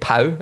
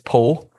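First: The name is said with an English pronunciation. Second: The name is said with a French pronunciation. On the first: The speaker calls it wrong. "I have to stop saying Pau" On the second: The speaker calls it right. "it's Po"

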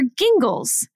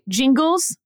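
First: The name begins with a hard G sound. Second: The name begins with a soft J sound.

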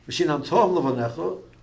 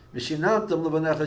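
First: The stress falls on the final syllable tam. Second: The stress falls on the syllable nan. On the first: You should teach them to your children. "is you should teach them to your children" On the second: You taught them to your children. "is you taught it to your children"

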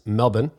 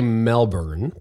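First: It is said with an Australian pronunciation. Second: It is said with an American pronunciation. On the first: The speaker calls it right. "but it's Melbourne" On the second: The speaker calls it wrong. "We would say Melbourne"

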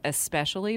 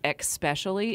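First: The word begins with an 'es' sound. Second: The word begins with an 'ex' sound. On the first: The speaker calls it right. "instead of especially, because there's the C is after the S" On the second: The speaker calls it wrong. "when people say especially"

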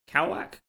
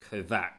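First: The middle consonant is a W sound. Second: The middle consonant is a V sound. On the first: "I'm guessing it's Kowak" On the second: "it's a W but it's pronounced as a V, so it could be Kovac"

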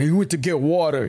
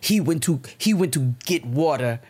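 First: It is said in an exaggerated American accent. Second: It is said in a British accent. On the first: The phrase is mocking American speech as ignorant. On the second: The phrase is presented as correct British usage.

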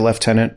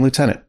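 First: It is said the British way, like leftenant. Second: It is said the American way, like lootenant.

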